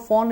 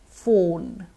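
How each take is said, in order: First: The vowel is an aw sound, like fawn. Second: The vowel is a long O sound. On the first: The speaker calls it wrong. "So no more phone, everybody. Phone is a different word, spelled F A W N" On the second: The speaker calls it right. "But this is phone"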